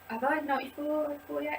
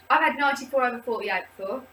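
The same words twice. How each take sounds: First: Second-guess the number; doubting herself. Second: Said in the usual way. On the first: Real, not acted.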